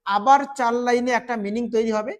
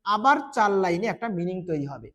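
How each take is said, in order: First: "আবার চার লাইনে একটা মিনিং তৈরি হবে" ending on a rise, still going; rising list tune. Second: "আবার চার লাইনে একটা মিনিং তৈরি হবে" said lower, closing with a fall; falling final tune. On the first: Teacher listing stanzas for students, voice rising mid-list. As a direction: leave it hanging upward, more to come. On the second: Teacher finishing the list for students, voice dropping to close. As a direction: settle it down as the last item. Listing meanings of stanzas. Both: Shown as a demonstration.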